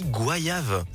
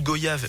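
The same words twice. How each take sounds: First: The first syllable sounds like 'gwa', as in voyage. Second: The first syllable sounds like 'go'. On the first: The speaker calls it right. "Mais ça se dit goyave" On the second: The speaker calls it wrong. "dans l'équipe, on disait un petit jus de goyave"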